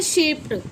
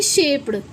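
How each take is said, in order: First: "शेप्ड" said as "shapet"; correct t ending. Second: "शेप्ड" with a voiced d at the end; wrong d ending. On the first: Teacher adds ed to shape, शेप्ड with t. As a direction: end "शेप्ड" on t, not d. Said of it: "हो जाता है शेप्ड". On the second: Teacher shows what not to say, शेप्ड with d. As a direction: say "शेप्ड" as "shape-d". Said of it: "ना कि शेप्ड". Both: Shown as a demonstration.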